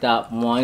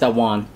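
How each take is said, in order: First: The phrase sounds hesitant and unsure. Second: The phrase sounds confident and assured. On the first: The speaker calls it wrong. "You don't want to say like" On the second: The speaker calls it right. "Say it like you know what you're saying"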